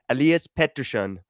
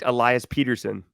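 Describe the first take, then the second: First: The name is said with Swedish pronunciation. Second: The name is said with English pronunciation. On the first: "the Swedish way to do it was" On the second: "he liked Elias Peterson as the English version"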